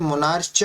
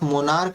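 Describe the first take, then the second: First: The word ends with a 'ch' sound. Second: The word ends with a 'k' sound. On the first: The speaker calls it wrong. "इसे मोनार्च नहीं पढ़ सकते" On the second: The speaker calls it right. "तो जब आप मोनार्क का पढ़ रहे हो"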